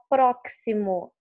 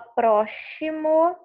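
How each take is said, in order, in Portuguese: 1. O x é pronunciado como o som de ks. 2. O x é pronunciado como o som de sh. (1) "Você não fala próximo, ela não tem o som de que si, como de táxi" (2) "Você não fala próximo, ela não tem o som chiado"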